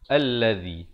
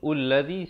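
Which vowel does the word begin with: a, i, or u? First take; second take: a; u. First: The word begins with an a vowel. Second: The word begins with a u vowel. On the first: The speaker calls it right. "Di sini kena baca allazi" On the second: The speaker calls it wrong.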